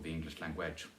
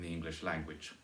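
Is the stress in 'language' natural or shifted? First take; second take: shifted; natural. First: Language has its stress moved to another syllable. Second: Language has its usual natural stress. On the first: The speaker calls it wrong. "or the English language" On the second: The speaker calls it right. "the one that's natural in the English language"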